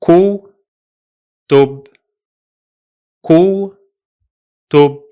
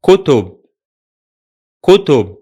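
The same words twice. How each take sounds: First: "ku" and "tub" split apart with pauses; broken into syllables. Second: "kutub" run together as one word; joined word; whole word. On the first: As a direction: read "ku, tub" slowly, with a pause between the syllables. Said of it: "the two syllables of this word are". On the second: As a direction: blend "kutub" smoothly, without a break. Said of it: "Altogether will be". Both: Shown as a demonstration.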